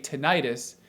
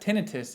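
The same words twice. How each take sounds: First: The ending sounds like the suffix 'itis'. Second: The ending does not sound like 'itis'. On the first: The speaker calls it wrong. "you're sort of implying that it's an inflammatory condition" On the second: The speaker calls it right. "tinnitus is a more accurate pronunciation"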